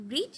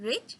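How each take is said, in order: First: "read" as in the present tense, long ee; present-tense pronunciation. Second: "read" as in the past tense, short vowel; past-tense pronunciation. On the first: Teacher showing students the verb forms, present-tense "read" with long ee. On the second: Teacher showing students the verb forms, past-tense "read" said like red. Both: Shown as a demonstration. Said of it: "difference between the pronunciation".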